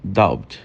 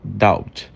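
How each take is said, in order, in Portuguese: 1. O som do b é quase silencioso. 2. O som do b é quase silencioso.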